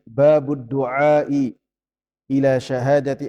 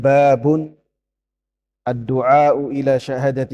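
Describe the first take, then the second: First: The first word links into du'ai without n. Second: The first word ends in n, with du'a'u. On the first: "Bisa juga dibaca dengan" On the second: "jadi bisa dibacanya"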